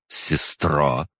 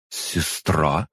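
First: "сестра" as a statement, no rising end; cooled-off realization. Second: "Сестра" with a rising questioning end; cooled-off question. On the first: Demon concedes the kinship, musing "сестра" without a question. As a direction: settle "сестра" down, accepting the fact. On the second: Angry demon suddenly cools, asking "Сестра" with a rise. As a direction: say "Сестра" as if it just sank in, lifting the end. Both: A narrator's reading. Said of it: "Аза внезапно остыла".

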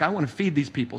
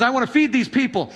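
First: Lower, softer, offhand joke version of the line; casual joking I wanna feed these people; mock picnic take. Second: Said in the usual way. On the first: Shown as a demonstration. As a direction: throw it away like a picnic quip. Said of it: "See, I told you Jesus would be good for a picnic". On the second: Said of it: "Uh, J-, he says".

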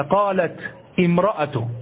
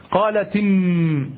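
First: قالت said with a stop on its final ta before امرأة; pausing on the ta. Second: قالت run into أم with a linking kasra on the ta, as qalati-m; linked with kasra. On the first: Teacher to students showing the pause version, slow. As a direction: stop on قالت, then start امرأة fresh. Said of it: "لو وقفت لقلت هكذا". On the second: Teacher to students showing the linked version, slowly. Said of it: "كسرنا التاء". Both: Shown as a demonstration.

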